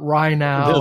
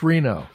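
First: The first syllable sounds like 'rye'. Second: The first syllable sounds like 'ree'. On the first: The speaker calls it wrong. "It's not Rhino" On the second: The speaker calls it right. "it's Reno"

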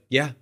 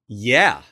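First: The word is said meekly and hesitantly. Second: The word is said firmly and challengingly. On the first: The speaker is unsure and intimidated. "So timid" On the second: The speaker stands his ground. "I gave it back to him"

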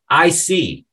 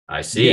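First: It sounds warm and agreeable. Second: It sounds curt and closed off. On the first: The speaker understands. "If you say this with a smile and a nod, it can mean I understand" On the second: The speaker is ending the conversation. "it's said with little in an like with a frown"

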